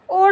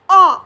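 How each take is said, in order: First: The vowel is a closed 'oh' sound. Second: The vowel is an open 'aw' sound. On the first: The speaker calls it wrong. "याला आपण ओ नाही म्हणायचे" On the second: The speaker calls it right. "याला ऑ असं म्हणायचं आहे"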